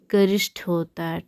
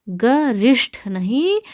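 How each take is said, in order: First: गरिष्ठ in one run, "garishth"; "ga-rishth" for गरिष्ठ, falling; correct form. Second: गरिष्ठ drawn out slowly as "ga-risht"; slow, split-up गरिष्ठ, rising into नहीं; wrong form. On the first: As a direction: say गरिष्ठ joined up, aspirated ending. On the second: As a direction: stretch गरिष्ठ syllable by syllable. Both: Shown as a demonstration.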